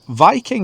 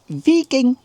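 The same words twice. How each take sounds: First: It is said with a plain English accent. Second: It is high pitched, with a high E vowel. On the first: The speaker calls it wrong. "not how you say it in Swedish or Norwegian" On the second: The speaker calls it right. "very high pitched and squirrely"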